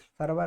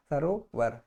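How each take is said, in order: First: सरवर with the middle vowel dropped, sar-var; wrong pronunciation. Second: सरोवर with a clear ओ in the middle, sa-ro-var; correct pronunciation. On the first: Teacher to students, voicing the wrong form. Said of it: "नहीं". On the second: Teacher to students, modelling correct pronunciation. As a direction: model सरोवर as the pure form. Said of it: "शुद्ध उच्चारण". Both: Shown as a demonstration.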